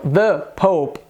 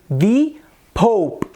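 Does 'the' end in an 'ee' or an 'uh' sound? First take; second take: uh; ee. First: The article is said with a short 'uh' vowel. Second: The article is said with a long 'ee' vowel. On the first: It follows the usual rule. "e não The Pope" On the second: It adds emphasis or drama. "eu optei por dizer The Pope"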